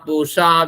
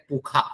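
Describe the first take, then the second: First: The middle consonant is an 'sh' sound. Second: The middle consonant is a 'kh' sound.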